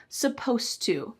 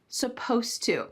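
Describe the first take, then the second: First: The ed sound at the end is dropped. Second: The same.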